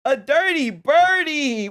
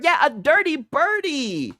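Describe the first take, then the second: First: Drawn-out teasing. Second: Slow teasing repeat. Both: Real, not acted. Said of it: "Sigs is a scumbag and a dirty bird".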